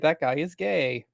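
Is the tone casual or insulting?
casual. It is said in a light, casual tone. It is a neutral remark.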